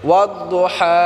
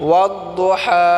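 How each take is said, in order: The two takes are said the same way.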